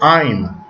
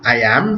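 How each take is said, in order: First: The words are contracted into one syllable. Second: Both words are said in full, separately. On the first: "estoy diciendo I'm" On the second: "en lugar de decir I am"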